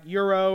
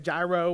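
First: The word begins with a Y sound. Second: The word begins with a hard G sound. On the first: The speaker calls it right. "So the G is like a Y, ... It's kind of like Euro" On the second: The speaker calls it wrong. "some of you say gyro, which that's offensive"

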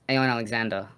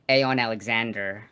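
First: The final R sound is dropped. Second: The final R sound is clearly pronounced. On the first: The speaker calls it right. "So that's the Kiwi. ... Not pronouncing the R" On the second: The speaker calls it wrong. "it's not Aeonalexander"

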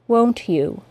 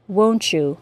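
First: Both words are said separately, with no blending. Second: The t and y blend into ch. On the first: "articulate perfectly, with no assimilation" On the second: "with the assimilated CH sound and J sound"

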